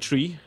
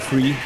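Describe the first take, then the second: First: The th sound is said as t. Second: The th sound is said as f. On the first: "in Ireland, they say tree instead" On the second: "They say free"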